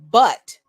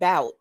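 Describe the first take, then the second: First: The vowel sounds like the one in 'up'. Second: The vowel sounds like the one in 'out'. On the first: "phonetically where it's pronounced but" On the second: "some people would think it's pronounced bout, but it's it's not"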